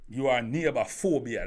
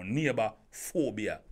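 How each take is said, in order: First: Said in the usual way. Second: Neighbor phobia said slowly, each word weighed; presenting Neighbor phobia as a new term; slow coined term. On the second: Shown as a demonstration. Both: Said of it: "That's a new word now".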